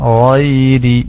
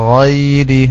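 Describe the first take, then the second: No difference in how they are said.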